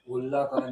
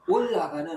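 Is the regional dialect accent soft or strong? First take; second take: soft; strong. First: It has a soft, mild dialect accent. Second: It has a strong regional dialect accent. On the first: The speaker calls it right. "이렇게 부드럽게" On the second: The speaker calls it wrong. "사투리를 너무 세게 하지 말고"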